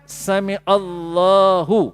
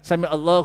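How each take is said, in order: First: The vowel after the 'l' is held long. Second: The vowel after the 'l' is cut short. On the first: The speaker calls it right. "Kalimah lam pada kalimah Allah tu dipanjangkan dua harkat" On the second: The speaker calls it wrong. "Dia buang tanda panjang pada kalimah lam"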